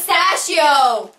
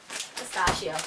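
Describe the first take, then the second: First: Slow "pistachio" with the A of "stash"; corrective "pistachio". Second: Low, soft "pi-STAH-shio"; other "pistachio". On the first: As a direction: insist on "pi-STASH-io", drawn out. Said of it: "No, it's pistachio". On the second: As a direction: say "pistachio" with "stahsh", an open "ah". Answers the request to say pistachio. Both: Shown as a demonstration.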